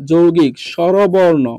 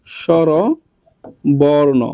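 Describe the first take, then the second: First: Said in the usual way. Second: স্বরবর্ণ stretched very slowly for the class; slow teacher dictation of স্বরবর্ণ; drawn out slowly. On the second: Shown as a demonstration.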